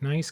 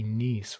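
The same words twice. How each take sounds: First: It is pronounced as the everyday adjective. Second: It is pronounced as the French city name. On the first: It is the ordinary word meaning pleasant. "nice could be" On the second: It is the name of a city. "which is a city"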